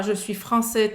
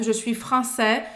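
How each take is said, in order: First: "français" ending in closed "ê"; Breton-style "français", narrow last vowel; closed final vowel. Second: "français" ending in open "é"; slow Parisian-style "français" with open last vowel; more open vowel. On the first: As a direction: say "français" as "francê". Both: Shown as a demonstration. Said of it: "o pessoal fala mais aberto".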